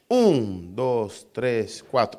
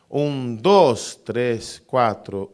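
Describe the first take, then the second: First: The strong accent falls on the first count. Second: The strong accent falls on a later count. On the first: This is the regular rhythm of the body and nature. The speaker calls it right. "es con acento fuerte en el tiempo uno" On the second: This is an irregular rhythm that goes against the body. The speaker calls it wrong. "el ritmo irregular cambia el acento. Ya no es más el uno"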